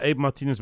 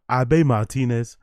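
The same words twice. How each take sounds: First: Said in the usual way. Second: Slow Abe Martinez, Abe drawn out as "ah-BAY"; African pronunciation. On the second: Shown as a demonstration. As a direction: give Abe two syllables, "ah-BAY". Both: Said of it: "I give it an African pronunciation".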